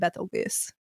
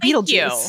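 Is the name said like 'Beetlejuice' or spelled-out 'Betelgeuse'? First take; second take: spelled-out; Beetlejuice. First: The name is said the way it is spelled. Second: The name sounds like 'beetle juice'. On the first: The speaker calls it wrong. "I pronounce it Betelgeuse, because that's how it's spelled" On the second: The speaker calls it right. "I didn't know it was Beetlejuice"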